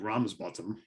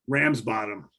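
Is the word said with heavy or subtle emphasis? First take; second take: subtle; heavy. First: It is said with light, subtle emphasis. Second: It is said with heavy, exaggerated emphasis. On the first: The speaker calls it right. "I know it's supposed to be Ramsbottom" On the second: The speaker calls it wrong. "I'm a New Yorker. We we over accentuate everything"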